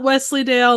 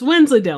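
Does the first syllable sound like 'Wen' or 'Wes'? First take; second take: Wes; Wen. First: The first syllable has no n, like 'Wes'. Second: The first syllable has an n, like 'Wend'. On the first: The speaker calls it wrong. "not Wesleydale" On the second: The speaker calls it right. "It's Wensleydale"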